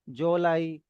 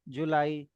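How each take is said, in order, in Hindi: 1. पहले व्यंजन के बाद o स्वर आता है। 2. पहले व्यंजन के बाद oo स्वर आता है।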